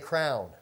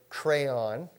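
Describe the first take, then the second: First: The word is said with one syllable. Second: The word is said with two syllables. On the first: This is a personal, nonstandard pronunciation. The speaker calls it wrong. "My wife likes to say crown" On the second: This is the standard pronunciation. The speaker calls it right. "which is the proper way"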